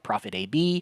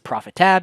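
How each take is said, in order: First: The ending is spelled out as letters. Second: The ending is said as the word tab. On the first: "You call it Profit A B" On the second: "I can pronounce it Profit Tab"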